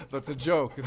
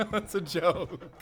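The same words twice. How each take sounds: First: Said through laughter; teasing, laughing confession. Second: Slow, high, laughing words; teasing, giggling admission. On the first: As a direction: laugh while you admit it. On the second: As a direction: drag it out while laughing. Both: Acted. Hunter teasing about one bed.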